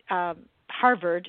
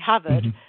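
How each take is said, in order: First: The R sounds are pronounced. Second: The R sounds are dropped. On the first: This is the usual way to say it. "if you were saying Harvard" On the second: This is how the mother said it. "she would say Harvard"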